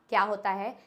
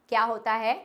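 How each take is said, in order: No difference in how they are said.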